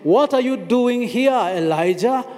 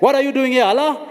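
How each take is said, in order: First: The question is spoken softly and gently. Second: The question is spoken loudly and harshly. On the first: The question comes with gentle concern. The speaker calls it right. "in a very soft voice" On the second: The question comes as condemnation. The speaker calls it wrong. "he didn't say"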